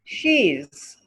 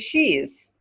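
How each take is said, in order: First: It is said as one contracted word. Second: The same.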